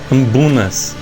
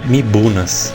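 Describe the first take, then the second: First: The word begins with an 'am' sound. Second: The word begins with a 'mi' sound. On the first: The speaker calls it right. "A pronúncia é meio estranha" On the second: The speaker calls it wrong. "Eu sempre falei errado"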